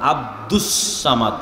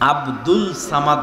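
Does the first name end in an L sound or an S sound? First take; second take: S sound; L sound. First: The first name ends with an S sound. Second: The first name ends with an L sound. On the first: The speaker calls it right. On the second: The speaker calls it wrong.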